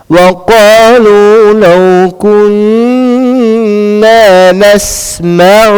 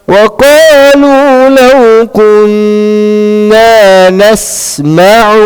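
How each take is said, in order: Both takes have the same delivery.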